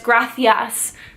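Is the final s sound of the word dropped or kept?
kept. The word ends with a clear final s sound. "Spain has the famous gracias accent"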